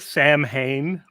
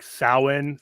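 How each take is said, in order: First: The name is sounded out just as spelled. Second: The name sounds different from its spelling. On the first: The speaker calls it wrong. "It it looks like Samhain" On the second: The speaker calls it right. "but it's pronounced like Samhain"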